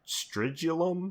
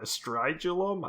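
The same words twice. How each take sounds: First: "Stridulum" said slowly as STRID-yoo-lum, short i, rising like a question; drawn out "Stridulum" with a short i, testing it; unsure pronunciation. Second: "Stridulum" said slowly as STRIDE-yoo-lum, long i, rising like a question; second guess pronunciation. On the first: Host guessing at a film title, first try, "Stridulum" with short i. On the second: Host retrying the film title, "Stridulum" with long i. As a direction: try "Stridulum" again with a long i, still unsure. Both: Shown as a demonstration. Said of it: "I don't know".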